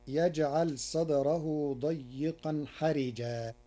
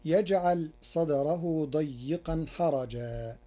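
First: حرجا with i on ra; حرجا read as harijan; Warsh reading. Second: حرجا with a on ra; حرجا read as harajan; reading of Hafs. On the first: (حرجا بكسر الراء) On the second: (حرجا بفتح الراء) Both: Shown as a demonstration. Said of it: "كلمة حرجا بكسر الراء".

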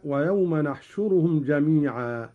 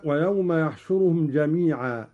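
First: «نحشرهم» starting with nun instead of ya; «نحشرهم» with a clear nun at the start; majestic nun. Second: Said in the usual way. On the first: Shown as a demonstration. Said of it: "بنون العظمة هكذا". («نحشرهم» بنون العظمة) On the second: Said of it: "قرأ قالون بنون العظمة".

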